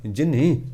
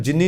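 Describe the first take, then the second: First: ਜਿਨੀ as jinhi, with an H after the N; aspirated reading. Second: ਜਿਨੀ as plain jinni, with no H; wrong reading. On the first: Preacher modelling the subscript letter, ਜਿਨੀ with H. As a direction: say ਜਿਨੀ with a breath of H in the last syllable. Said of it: "ਪੈਰ 'ਚ ਹਾਹਾ ਲਾ ਕੇ ਬੋਲਣਾ". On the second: Preacher warning against the misreading, ਜਿਨੀ without H. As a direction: misread ਜਿਨੀ with a bare N before the final vowel. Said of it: "ਉਹਨੂੰ ਜਿਨੀ ਨਹੀਂ ਪੜ੍ਹਨਾ". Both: Shown as a demonstration.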